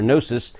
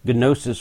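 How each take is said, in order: First: The initial G is silent before the n. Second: The initial G is pronounced before the n. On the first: "depending on whether you want to pronounce the G or not" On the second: "depending on whether you want to pronounce the G or not"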